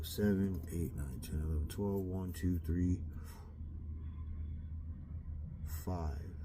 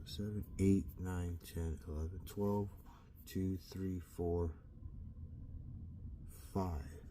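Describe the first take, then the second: First: Quiet counting to himself; counting under breath. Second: Softly recounting the hours; counting under breath. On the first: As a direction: count the hours softly under your breath. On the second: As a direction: count again quietly, almost to yourself. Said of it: "let me count that again". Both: Real, not acted.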